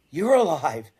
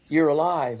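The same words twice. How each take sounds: First: High, loud-peaking swell on "You're"; incredulous echo. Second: Retold amazement. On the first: Retold or imitated. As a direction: throw "You're alive?" back in disbelief. Retold reunion, he echoes in disbelief. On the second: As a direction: voice the rescuer's surprise at finding him. Retold reunion, man greets him amazed.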